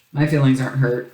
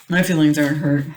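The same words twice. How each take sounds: First: "My feelings aren't hurt" said lightly, a touch of mock pout. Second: "My feelings aren't hurt" repeated louder, hammed-up protest; mock insistent. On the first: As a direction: brush it off with a mild pretend sulk. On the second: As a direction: insist playfully, overdoing the denial. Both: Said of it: "No, it's fine".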